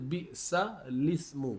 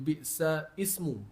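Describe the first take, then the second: First: The l links straight into ismu. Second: Ismu starts fresh with a glottal break. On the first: The speaker calls it right. "dia baca dia bi'sa lismu" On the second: The speaker calls it wrong. "kalau orang baca tak ada ngaji dia akan baca bi'sa ismu"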